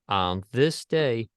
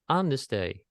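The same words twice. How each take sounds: First: The first word is said with hesitation. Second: The first word is said clearly and confidently. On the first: The speaker calls it wrong. "The first way I mentioned with hesitation" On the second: The speaker calls it right. "the second way with clarity"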